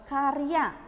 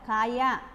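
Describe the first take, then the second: First: The r sound is pronounced before the y. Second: The r sound is dropped before the y. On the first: The speaker calls it right. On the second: The speaker calls it wrong.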